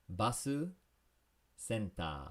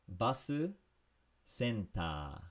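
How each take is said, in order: Both takes have the same delivery.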